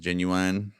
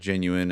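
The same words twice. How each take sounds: First: The last syllable sounds like 'wine'. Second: The last syllable sounds like 'in'.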